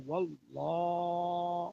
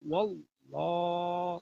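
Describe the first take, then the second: No difference in how they are said.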